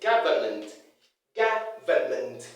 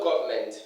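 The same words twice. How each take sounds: First: Government as GA-vuh-ment, low-pitched; correct pronunciation. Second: Government as "GOV-ment"; mispronunciation. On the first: Teacher models how it is pronounced, correct pronunciation. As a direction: open "ga" in "government", then sound "vuh-ment". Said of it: "It's pronounced". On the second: Teacher shows what not to say, mispronunciation. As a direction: squash "government" to two syllables with an o. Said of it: "Not government". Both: Shown as a demonstration.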